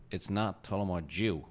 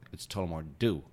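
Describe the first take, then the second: First: Slow imitation New Yorker, DEW said as "joo"; mock New York correction, Dew as "joo"; bad New York accent, Irish "Dew". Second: Imitation New Yorker, DEW said as "doo"; mock New York correction, Dew as plain "doo"; bad New York accent, American "Dew". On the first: Guest imitates his friend rejecting the Irish way, New York accent, Dew as "joo". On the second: Guest imitates his friend correcting him, New York accent, Dew as "doo". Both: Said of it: "very bad New York accent".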